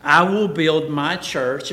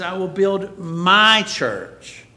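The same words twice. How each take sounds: First: Said in the usual way. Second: MY drawn out and louder, slow delivery; slow, emphatic "my church"; stress on MY. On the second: Acted. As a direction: lean hard and long on "my". Stressing who owns the church.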